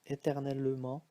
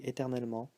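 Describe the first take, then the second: First: The e after the t is heard as schwa. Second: The e after the t is silent. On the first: "here it's pronounced as a schwa" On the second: "when we speak fast, we say éternellement, so we don't hear the this e"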